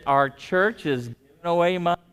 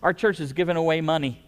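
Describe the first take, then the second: First: It is said very slowly. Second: It is said at a normal speed.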